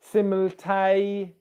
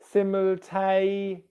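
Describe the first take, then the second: The two takes are said the same way.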